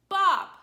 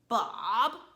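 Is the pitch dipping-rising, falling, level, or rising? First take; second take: falling; dipping-rising. First: The pitch falls sharply like a yell. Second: The pitch dips down then rises slightly. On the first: Mad and scolding someone. "It's a tone that comes down" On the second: Annoyed at someone still misbehaving. "your voice falls down and comes up a little bit"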